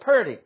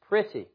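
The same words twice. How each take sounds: First: The word sounds like 'purty', in a Southern accent. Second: The word sounds like 'pretty', in a standard accent. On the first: "P-U-R-T-Y. That's the phonetic spelling of it" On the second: "some of you know that word as P-R-E-T-T-Y. Pretty. I think I said that right"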